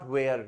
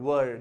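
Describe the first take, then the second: First: The word is said with a long 'air' vowel. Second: The word is said with a short 'er' vowel. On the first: The speaker calls it wrong. "Not वेयर" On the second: The speaker calls it right. "वर, not वेयर"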